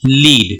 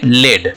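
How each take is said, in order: First: The vowel is a long 'ee' sound. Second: The vowel is a short 'e' sound. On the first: It means to guide a team. "इसको बोलेंगे लीड" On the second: It names a heavy metal. "इसको बोलते हैं लेड"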